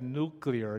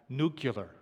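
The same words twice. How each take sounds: First: It is said as new-clee-ar. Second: It is said as new-cue-lar. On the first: The speaker calls it right. "notice I said nuclear" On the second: The speaker calls it wrong. "not nuclear. George Bush fans will understand that"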